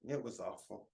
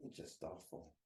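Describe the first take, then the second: First: Said in the usual way. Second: A soft whisper, repeating it to himself; whispered afterthought of pain; whispered echo. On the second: Real, not acted. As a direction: let it fall away to a whisper. Pained memory of school bullying.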